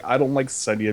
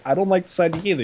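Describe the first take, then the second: First: Lightly voiced character, matter-of-fact objection; understated retold complaint, usual pitch; Grey Worm. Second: Lightly imitated character, pitched higher; Missandei. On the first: Grey Worm objecting to talks with slavers, lightly imitated. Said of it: "And Grey Worm's like". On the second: Missandei echoing Grey Worm's objection, lightly imitated higher voice. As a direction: chime in with a higher retold objection. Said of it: "Missandei's like".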